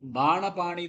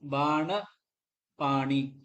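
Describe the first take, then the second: First: The two words run together without a break. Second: The two words are said with a break between. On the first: "சேர்ந்து வரணும்" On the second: "தனித்தனியா எடுத்துக்கிறோம்"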